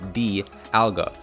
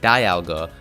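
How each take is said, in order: First: The first syllable sounds like 'dee'. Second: The first syllable sounds like 'die'. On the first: "the way it's pronounced in all official Pokemon media" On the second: "since Dialga's name derives from the word diamond"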